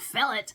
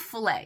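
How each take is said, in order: First: The final T sound is pronounced. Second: The final T sound is silent. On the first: It is treated as an English word. "Somebody might be out there going, it's called fillet" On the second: It is treated as a French word. "Now I'm saying filet. ... you don't pronounce the T"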